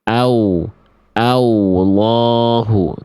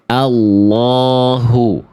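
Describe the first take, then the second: First: A w-like glide comes between a and l. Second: The a goes straight into the l. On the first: The speaker calls it wrong. "Nah itu nggak boleh ya. Tidak boleh menambahkan huruf waw di situ" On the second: The speaker calls it right. "sekarang kita baca yang benarnya. A langsung masuk lam"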